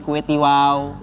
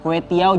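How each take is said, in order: First: The last word is said as 'tiwau'. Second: The last word is said as 'tiaw'. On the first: The speaker calls it wrong. "jadi kue tiwau" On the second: The speaker calls it right. "Kue tiaw jadi kue tiwau"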